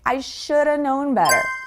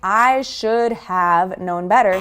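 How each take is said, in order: First: Should have is reduced to shoulda. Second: Should have is said as two full words. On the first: The speaker calls it right. "We really contract these words, should have, into shoulda" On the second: The speaker calls it wrong. "instead of saying"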